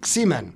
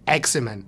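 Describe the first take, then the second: First: The name begins directly with the x sound. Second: The name begins with a vowel before the x. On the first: "a lot of the German investors, especially, they they call it Ximen" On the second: "the pronunciation of the company is Eximan. That's how you pronounce it"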